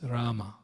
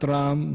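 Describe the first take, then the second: First: The word ends with an a vowel. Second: The word ends on the consonant, no vowel. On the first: The speaker calls it right. "It's Rama" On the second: The speaker calls it wrong. "Not Ram either"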